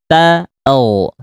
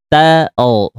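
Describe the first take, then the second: Both takes have the same delivery.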